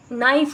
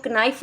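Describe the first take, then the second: First: Said in the usual way. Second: नाइफ as "ka-nife", K voiced; silent K sounded. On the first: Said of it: "नाइफ ना बोला जाए". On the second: Shown as a demonstration. Warning what not to say, silent K sounded. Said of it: "ना बोला जाए".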